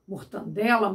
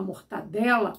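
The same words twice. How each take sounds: First: Mortandela with an extra n, mor-TAN-dela; wrong form mortandela. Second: Mortadela with no n, mor-ta-DE-la; correct mortadela. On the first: Teacher shows the common mistake mortandela, with an extra n. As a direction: say mortandela with the nasal tan sound. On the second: Teacher gives the correct form mortadela, with no extra n. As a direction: say mortadela cleanly, without the extra n. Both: Shown as a demonstration. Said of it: "como eu coloquei, é, quando usamos".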